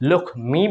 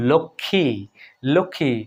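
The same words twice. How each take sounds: First: লক্ষ্মী said lok-mi, m fully heard; spelling-style লক্ষ্মী, ending in mi; mistaken sounded m. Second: লক্ষ্মী said lok-khi, no m; careful correct লক্ষ্মী, ending in khi; silent m. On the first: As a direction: show the wrong লক্ষ্মী with a spoken ম. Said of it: "বলি না আমরা". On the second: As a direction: model লক্ষ্মী with doubled k-kh and silent ম. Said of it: "লক্ষ্মী বলি না আমরা". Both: Shown as a demonstration.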